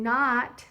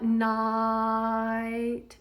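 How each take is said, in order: First: The vowel stays on one pure 'ah' sound. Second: The vowel glides from 'ah' toward 'ih'. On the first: This is how a Southern speaker might say it. "you don't just sing not, you might if you're Southern" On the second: This is the usual English way of saying it. "notice how my tongue moved away from the low position of the ah into a little bit of an it position"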